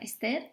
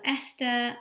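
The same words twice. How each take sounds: First: The name is said the English way. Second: The name is said the Spanish way.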